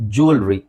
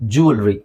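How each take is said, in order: Both takes have the same delivery.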